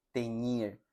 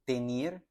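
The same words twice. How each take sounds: First: "teñir" with ny; ñ version; correct ñ. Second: "Tenir" with a plain n; plain n version; wrong plain n. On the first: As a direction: correct take. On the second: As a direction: incorrect take. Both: Shown as a demonstration. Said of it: "Noten la diferencia".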